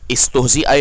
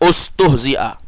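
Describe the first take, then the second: First: The first vowel is an 'i' sound. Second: The first vowel is a 'u' sound. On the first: The speaker calls it wrong. "ini bukan istuhzi'a, ini salah" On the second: The speaker calls it right. "ini ustuhzi'a"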